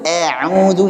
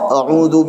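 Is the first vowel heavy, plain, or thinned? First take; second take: thinned; plain. First: The first vowel is overly thinned, leaning toward e. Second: The first vowel is a plain, ordinary a. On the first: The speaker calls it wrong. "berlebihan pengen nipisin jadinya taklil. A'udzu ini juga salah" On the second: The speaker calls it right. "Biasa saja a"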